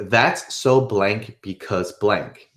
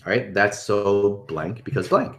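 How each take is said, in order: First: Slowly spelling out the sentence pattern; slow template demo. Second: Said in the usual way. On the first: Shown as a demonstration. Coach slowly setting out the phrase pattern for viewers, drawn out. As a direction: lay out each piece of the template slowly.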